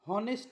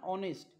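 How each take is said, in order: First: The word begins with an h sound. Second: The word begins with a vowel sound. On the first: The speaker calls it wrong. "हॉनेस्ट नाही हा" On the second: The speaker calls it right.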